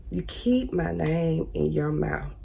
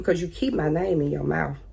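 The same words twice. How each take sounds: First: "keep" leaned on, every word slow and softer; slow pointed repeat. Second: Said in the usual way. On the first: Real, not acted. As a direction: spell it out slowly, word by word, softer. Repeating the accusation slowly.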